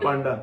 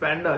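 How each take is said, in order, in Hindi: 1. पहला स्वर 'father' के स्वर जैसा है। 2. पहला स्वर 'cat' के स्वर जैसा है। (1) "it's not पांडा" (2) "it's पैंडा"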